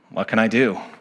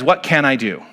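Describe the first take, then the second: First: It is said in a defeated, helpless tone. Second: It is asked as an open, hopeful question.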